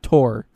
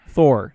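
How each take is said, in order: First: The name begins with a plain t sound. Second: The name begins with a th sound. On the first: The speaker calls it wrong. "not Tor" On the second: The speaker calls it right. "Pronounce it with a th"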